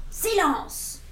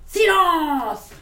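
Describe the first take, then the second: First: Calm command. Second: Loud, high "silence!" barked out; commanding shout. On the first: Acted. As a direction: hush the monsters with one word. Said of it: "fit simplement Max". (ordre calme de Max aux monstres) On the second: Shown as a demonstration. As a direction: order the whole room to freeze. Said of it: "j'aimerais être comme lui, comme ça, faire". (« silence! » lancé fort, comme Max)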